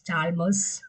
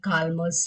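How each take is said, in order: First: The name begins with a ch sound. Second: The name begins with a k sound. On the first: "pronunciation എങ്ങനെ വേണമെങ്കിലും പറയാം" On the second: "അല്ലെങ്കിൽ കാൽമേഴ്സ് എന്നൊക്കെ പറയാം"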